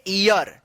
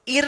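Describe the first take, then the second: First: ईयर in two syllables, "ee-yar", falling; correct reading of year. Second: ईर as one syllable, plain "eer"; wrong reading of year. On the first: Teacher gives the proper reading, ईयर as "ee-yar". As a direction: say ईयर with a clear y glide. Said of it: "इसको पढ़ेंगे". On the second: Teacher shows the reading to avoid, ईर as "eer". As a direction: misread it as ईर without the glide. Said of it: "नहीं पढ़ेंगे". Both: Shown as a demonstration.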